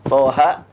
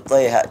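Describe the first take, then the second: First: The first vowel is an open a sound. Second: The first vowel is shifted toward e.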